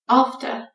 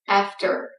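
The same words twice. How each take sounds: First: British accent, with the R sound left out. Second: American accent, with the R sound pronounced. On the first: "A British speaker says after" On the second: "An American speaker says after"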